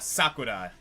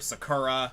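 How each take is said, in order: First: The stress is on the first syllable. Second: The stress is on the second syllable. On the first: The speaker calls it right. "the proper pronunciation oftentimes is" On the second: The speaker calls it wrong. "a lot of people say"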